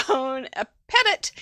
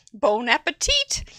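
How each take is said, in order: First: Slow, deliberate amateur French; careful, laboured French pronunciation; best French attempt. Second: Cheerful attempt at French with a rising end; American-accented French; bad French. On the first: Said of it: "That's my best, my best French". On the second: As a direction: say it in amateur French. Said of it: "It's the way I speak". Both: Shown as a demonstration.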